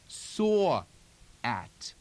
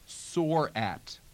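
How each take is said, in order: First: The r is dropped, with space between words. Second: The r is pronounced in a General American way.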